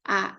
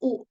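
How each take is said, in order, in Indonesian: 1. Huruf itu dibunyikan sebagai vokal 'uh'. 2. Huruf itu dibunyikan sebagai vokal 'oo'. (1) "sedangkan fonik Inggris" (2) "Di Indonesia itu tetap U"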